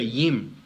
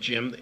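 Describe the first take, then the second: First: The name starts with a Y sound. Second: The name starts with a hard J sound. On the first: "They'll say Yim" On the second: "that hard that J like Jim"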